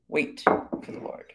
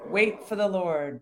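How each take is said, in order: First: Slow whisper of "Wait for the Lord"; whispered repeat. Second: Said in the usual way. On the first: Shown as a demonstration. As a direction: hush "Wait for the Lord" slowly, almost no voice. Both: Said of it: "Notice he repeats that twice".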